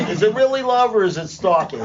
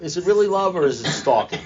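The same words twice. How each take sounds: First: High, laughing through the question; real laughter breaking in. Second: Said in the usual way. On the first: Real, not acted. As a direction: giggle as you ask it. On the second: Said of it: "said again laughing".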